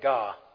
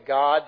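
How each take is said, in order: First: The final d sound is dropped. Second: The final d sound is clearly pronounced. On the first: "they drop the end of their words" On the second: "they don't say God"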